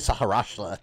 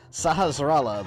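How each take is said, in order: First: The name has an added 'sh' sound near the end. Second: The name has no 'sh' sound near the end. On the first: The speaker calls it wrong. "I always say Saharashtra" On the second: The speaker calls it right. "I've never taken the time to pronounce that properly"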